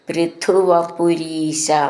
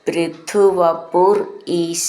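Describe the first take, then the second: First: The two parts are said joined together. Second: The two parts are said separately.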